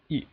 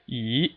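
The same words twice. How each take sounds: First: The syllable is short, with no distinct contour. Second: The pitch rises steadily from start to end. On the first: "it sounds very quick" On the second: "the second tone is just a steadily rising tone"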